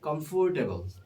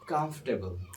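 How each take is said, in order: First: It uses the common Bangladeshi-style pronunciation. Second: It uses the standard English pronunciation. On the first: The speaker calls it wrong. "usually pronounce it comfortable, comfortable. But this is not correct pronunciation" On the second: The speaker calls it right. "The correct pronunciation will be comfortable"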